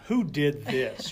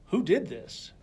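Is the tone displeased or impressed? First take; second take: displeased; impressed. First: The voice sounds displeased and disapproving. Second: The voice sounds impressed and admiring. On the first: The speaker finds fault with the work that was done. The speaker calls it wrong. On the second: The speaker admires the work that was done. The speaker calls it right.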